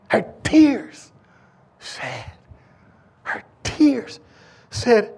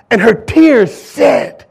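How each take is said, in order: First: Soft, with long pauses between words; hushed dramatic pauses. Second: Each word drawn out slowly; slow dramatic build. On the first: Preacher hushing the church before the woman speaks, soft pauses. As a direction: let the silence hang around tears. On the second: Preacher building suspense before the woman's words, slow heavy stress. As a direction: lean on tears, slow and heavy. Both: Shown as a demonstration.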